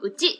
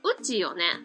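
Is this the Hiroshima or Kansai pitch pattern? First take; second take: Hiroshima; Kansai. First: The pitch rises on ち, Hiroshima style. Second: It uses the Kansai pitch pattern.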